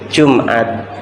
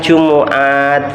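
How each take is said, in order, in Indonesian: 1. Kata ini dipendekkan menjadi dua suku kata. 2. Kata ini diucapkan dengan tiga suku kata penuh. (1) "jadi Jumat" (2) "sulit untuk mengucapkan"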